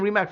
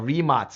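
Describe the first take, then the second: First: The name ends with a k sound. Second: The name ends with a ts sound. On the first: The speaker calls it wrong. "I've been saying Rimac for a long time just because C is K" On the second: The speaker calls it right. "just read how it is written"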